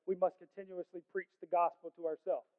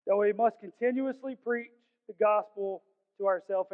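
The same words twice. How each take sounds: First: Said in the usual way. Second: "must continuously preach" lifted and driven home; emphatic repeat. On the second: Real, not acted. Preacher repeating the clip's main point, emphatically.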